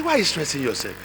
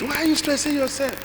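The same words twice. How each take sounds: First: Said in the usual way. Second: High, mildly whining question; whiny daughter. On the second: Retold or imitated. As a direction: tease mom in a high voice. Daughter scolds mother, voiced.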